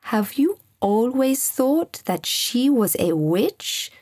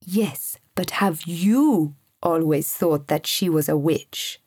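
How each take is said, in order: First: Slow, curious, unworried question rising at the end; calmly inquisitive, in no rush; casual question. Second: Lower-pitched, pointed question leaning on "you"; steady, insistent challenge, pitched down; firm. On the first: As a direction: ask it lightly and unhurriedly. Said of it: "in the same casual tone". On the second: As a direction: press the question firmly, stressing YOU. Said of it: "asked Sam firmly". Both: A narrator's reading.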